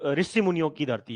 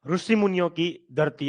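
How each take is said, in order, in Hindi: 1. पहला शब्द 'ri' ध्वनि से शुरू होता है। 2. पहला शब्द 'ru' ध्वनि से शुरू होता है। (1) "वैसे नहीं बोलते" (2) "अमित शाह जी बोलते हैं, ... ऐसे बोलते हैं"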